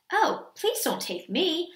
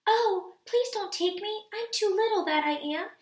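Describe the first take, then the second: First: Slow, mild goat pleading; not so small plea. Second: High, little-goat pleading; small pleading voice. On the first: Second goat begging the troll, slow mild plea. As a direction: plead slowly as the middle goat. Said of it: "his voice was not so small". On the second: Littlest goat begging the troll, small high plea. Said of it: "in his very small voice". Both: A narrator's reading.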